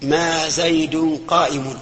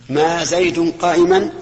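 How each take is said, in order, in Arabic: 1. لا تنتهي الكلمة الأخيرة بعلامة النصب. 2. تنتهي الكلمة الأخيرة بعلامة النصب 'a'. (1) "تميمي" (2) "حجاز"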